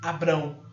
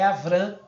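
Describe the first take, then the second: First: The second consonant is a B sound. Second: The second consonant is a V sound. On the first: "O Beit está com som de B" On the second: "Mas o certo é Avram"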